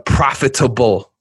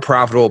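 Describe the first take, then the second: First: Every syllable is stressed separately. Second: The word is said smoothly as usual. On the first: The speaker calls it right. "I accentuate every single syllable" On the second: The speaker calls it wrong. "not profitable"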